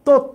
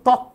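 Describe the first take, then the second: First: The first vowel is a closed 'o' sound. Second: The first vowel is an open 'aw' sound. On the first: The speaker calls it right. "এটার উচ্চারণ হবে তথ্য" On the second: The speaker calls it wrong. "এখন এটার উচ্চারণ তো তথ্য না"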